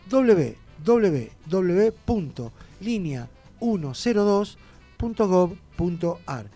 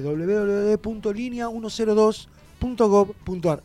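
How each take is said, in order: First: It is said slowly. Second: It is said very fast.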